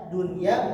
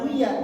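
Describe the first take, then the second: First: The n sound is clearly pronounced before y. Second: The n sound merges into the following y. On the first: The speaker calls it right. "dunia bukan duya" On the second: The speaker calls it wrong. "bukan duya"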